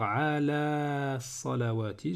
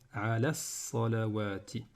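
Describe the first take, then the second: First: The final vowel of 'ala' is held long. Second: The final vowel of 'ala' is kept short. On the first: The speaker calls it wrong. "au lieu de dire" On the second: The speaker calls it right. "faire disparaître eh bien, la prolongation précédente"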